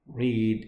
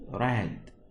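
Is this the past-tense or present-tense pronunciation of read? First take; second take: present; past. First: It is said with the present-tense vowel sound. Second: It is said with the past-tense vowel sound. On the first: The action is in the present or infinitive. "Read in the present or in infinitive" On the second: The action happened before now. "in the past we will pronounce it read"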